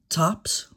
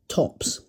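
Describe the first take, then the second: First: It is said with an American pronunciation. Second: It is said with a non-American pronunciation. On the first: The speaker calls it right. "tops rather than" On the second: The speaker calls it wrong. "rather than tops"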